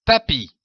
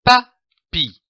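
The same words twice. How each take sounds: First: Said in the usual way. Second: PA, then PI, with a clear pause between; syllable by syllable. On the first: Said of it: "donne le mot". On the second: Shown as a demonstration. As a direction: split papi into two separate syllables. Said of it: "L'association de ces deux syllabes donne le mot".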